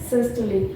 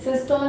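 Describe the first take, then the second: First: The word ends with an added 'ee' vowel. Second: The word ends on the final consonant sound. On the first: The speaker calls it right. "ये होता है सिस्टोली" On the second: The speaker calls it wrong. "सिस्टोल नहीं होता"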